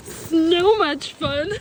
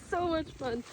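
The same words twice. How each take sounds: First: Slow, loud and stretched; drawn-out gleeful. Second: Said in the usual way. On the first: Real, not acted. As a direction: savour every word, delighted.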